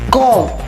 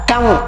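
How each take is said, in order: First: The vowel is a rounded 'oh' sound. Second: The vowel is a short 'uh' sound. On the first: The speaker calls it wrong. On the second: The speaker calls it right.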